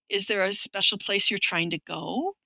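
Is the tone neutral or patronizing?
neutral. The question is asked in a plain, neutral tone.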